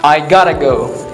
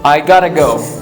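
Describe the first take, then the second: First: 'Have got to' is squeezed into a quick 'gotta'. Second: 'Have got to' is squeezed into a quick 'gotta'.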